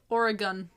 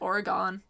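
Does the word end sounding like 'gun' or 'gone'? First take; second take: gun; gone. First: The last syllable sounds like 'gun'. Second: The last syllable sounds like 'gone'. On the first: This is how locals say the name. "They pronounce it Oregon" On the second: This is how East Coast people say the name. "all us East Coasters are like, Oregon. Like, Aura is gone"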